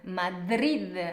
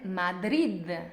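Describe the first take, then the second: No difference in how they are said.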